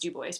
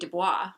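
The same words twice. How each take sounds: First: It is said the way locals say it. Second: It is said the way an outsider expects. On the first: The speaker calls it right. "but no, it's" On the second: The speaker calls it wrong. "which you would think would be"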